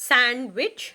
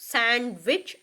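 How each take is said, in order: No difference in how they are said.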